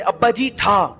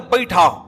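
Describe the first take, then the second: First: Said at normal speed with a clear 'ji'. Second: Said fast, with 'ji' blurred into 'hi'.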